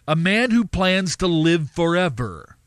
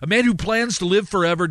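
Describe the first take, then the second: First: The phrase is read slowly and deliberately. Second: The phrase is read at a normal pace.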